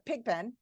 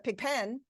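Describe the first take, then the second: First: The stress is on the first syllable. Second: The stress is on the second syllable. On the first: The speaker calls it right. "I say it's a pig pen" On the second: The speaker calls it wrong. "I don't say her room is a pig pen"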